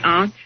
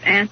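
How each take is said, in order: First: The word has a fancier, refined-sounding pronunciation. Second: The word has the ordinary, everyday pronunciation. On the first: "which sounds a little pretentious" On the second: "instead of aunt"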